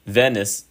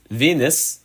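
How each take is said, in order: First: "Venus" said VEH-nus, short e; "Venus" as VEH-nus, first try; plain. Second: "Venus" said VEE-nus, long e; "Venus" corrected to VEE-nus, higher; corrected pronunciation. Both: Shown as a demonstration.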